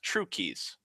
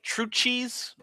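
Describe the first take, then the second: First: The name is said with a 'k' sound. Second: The name is said with a 'ch' sound. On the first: This is how everyone actually says it. The speaker calls it right. "it's pronounced True Keys" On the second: This is how the spelling looks. The speaker calls it wrong. "it's like True Cheese"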